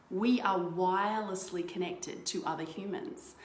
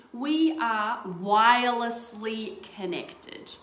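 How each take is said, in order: First: Said in the usual way. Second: We are wirelessly connected, drawn out slowly and louder; slow emphatic. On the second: Shown as a demonstration. Coach stressing the key idea to viewers, slow and emphatic.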